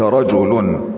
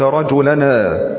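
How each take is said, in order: First: The final n has no vowel after it. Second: The final n is followed by a vowel. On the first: The speaker calls it right. "إنما قلت رجل، فالنون ساكنة زائدة" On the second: The speaker calls it wrong. "ما قلت رجلنا رجلني"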